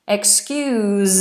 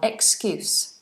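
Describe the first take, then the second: First: The word ends with a buzzing Z sound. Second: The word ends with a hissing S sound. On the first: It is the verb, meaning to forgive. "excuse as a verb, so to do, to excuse, has a Z sound" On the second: It is the noun, meaning a reason given. "Excuse as a noun is an S sound"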